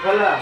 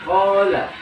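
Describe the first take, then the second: First: The long vowel is cut short. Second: The long vowel is held its full length. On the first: The speaker calls it wrong. "bukan hola, nah, nggak boleh" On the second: The speaker calls it right. "sempurnakan dulu matnya"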